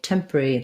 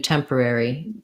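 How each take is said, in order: First: A middle syllable is dropped, leaving three. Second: All four syllables are clearly pronounced. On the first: "British English, I think they might do leave this or out" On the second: "we tend to do temporary, all, all of the syllables"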